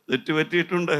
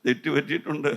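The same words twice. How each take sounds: The two takes are said the same way.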